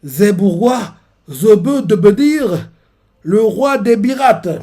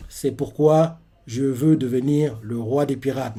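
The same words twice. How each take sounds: First: Slow, high, thick mispronounced consonants; slurred declaration with a sore mouth; toothache speech. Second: Said in the usual way. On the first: Acted. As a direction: talk as if your teeth hurt, drawn out. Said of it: "comme s'il il est, il est mal aux dents".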